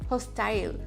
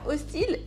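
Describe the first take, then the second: First: The word has an English pronunciation. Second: The word has a French pronunciation. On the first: "c'est juste la prononciation qui changera" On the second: "hostile est un vrai ami. Il aura la même orthographe, c'est juste la prononciation qui changera"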